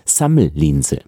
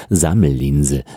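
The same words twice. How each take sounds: First: "Sammellinse" with unvoiced S at the start, low; voiceless S. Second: "Sammellinse" with buzzed z sounds, pitched lower; voiced S. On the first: Teacher repeats the example for learners, voiceless S in "Sammellinse". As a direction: keep the S of "Sammellinse" free of any buzz. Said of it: "das ist das stimmlose S". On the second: Teacher has a go despite doubts, voiced S in "Sammellinse". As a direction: buzz the S at the start of "Sammellinse". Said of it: "Na, was soll's". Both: Shown as a demonstration.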